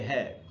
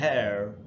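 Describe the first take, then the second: First: British accent, with the final r silent. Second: American accent, with the final r sounded. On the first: "British में बोलेंगे" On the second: "American में बोलना होता तो हम बोलते हैं"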